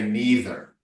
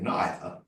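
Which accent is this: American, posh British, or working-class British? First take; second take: American; posh British. First: It is said in an American accent. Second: It is said in a posh British accent. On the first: The character is an American businessman. "I'm playing an American, even American businessman, I'm going to say neither" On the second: The character is highly educated and upper class. "if I'm playing a count or a politician, I would say neither"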